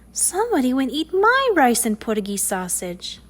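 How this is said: It is said in a soft, sweet voice.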